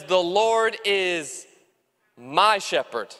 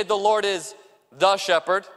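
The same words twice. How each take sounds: First: "my" leaned on, drawn out after a pause; slow "The Lord is", then land hard on "my shepherd"; stress on my. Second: Said in the usual way. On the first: Shown as a demonstration. Pastor stresses "my" to show a personal relationship, slow and deliberate. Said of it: "It doesn't say, "The Lord is the shepherd". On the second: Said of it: "It doesn't say".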